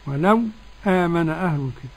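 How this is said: A brief silent stop comes before the second word. "كيف يكون السكت"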